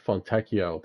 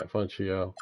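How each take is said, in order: First: "Fontecchio" with a hard k sound for cch; "Fontecchio" with cch said like the k in "key"; correct pronunciation. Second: "Fontecchio" with a soft "ch" in place of the k; "Fontecchio" with cch said as in "cheese"; mispronunciation. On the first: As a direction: say "Fontecchio" as fon-TEK-ee-oh. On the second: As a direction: say "Fontecchio" as fon-CHEE-oh. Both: Real, not acted. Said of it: "That's how you say it".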